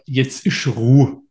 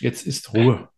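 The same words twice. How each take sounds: First: It is said in a regional dialect. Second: It is said in standard German.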